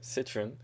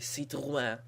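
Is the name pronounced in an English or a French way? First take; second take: English; French. First: The name is pronounced in an anglicized way. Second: The name is pronounced in a French way. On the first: "That's how John Cialdino would pronounce it" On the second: "In French, they would say"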